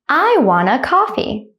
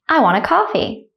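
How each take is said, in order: First: The sentence is said slowly and carefully. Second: The sentence is said at normal conversational speed. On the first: "one time slowly" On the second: "at a normal speed, like a native speaker"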